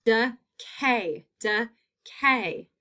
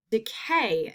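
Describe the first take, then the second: First: Decay in two separate beats; split into syllables. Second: Said in the usual way. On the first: Shown as a demonstration. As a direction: pause between de and cay in decay. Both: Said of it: "That long A is in that second syllable".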